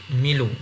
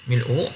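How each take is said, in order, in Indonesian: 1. Konsonan bersambung dengan lancar ke vokal. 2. Hentian glotis memisahkan konsonan dan vokal. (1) "pindahkan uh, baris hamzah ... kepada lam, jadi milu" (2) "Perkataan pertama adalah mil'u"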